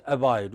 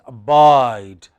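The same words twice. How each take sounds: First: Said in the usual way. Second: ABIDE with a long, loud BIDE; barely touch a-, boom -BIDE in abide; final-syllable stress. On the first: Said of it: "We don't say abide". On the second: Shown as a demonstration. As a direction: hit the second syllable of abide hard. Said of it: "we say abide".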